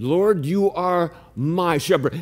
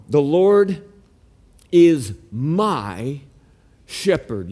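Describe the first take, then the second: First: Said in the usual way. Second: The Lord is MY shepherd, slow with pauses, my leaned on; stress on my. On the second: Shown as a demonstration. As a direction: lean on "my", pause before shepherd. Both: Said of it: "Notice it doesn't say a shepherd".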